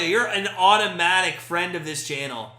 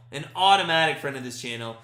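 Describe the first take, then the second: First: Said in the usual way. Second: Automatic leaned on, rest lower; stress on automatic. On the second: Shown as a demonstration. Streamer repeats welcome to Aussie viewer, stressing automatic.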